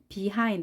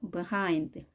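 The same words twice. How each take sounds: First: The first syllable is said strongly. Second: The first syllable is said weakly. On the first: The speaker calls it wrong. "이렇게 강하게 발음하지 마시고" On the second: The speaker calls it right. "b를 아주 약하게 하는 겁니다"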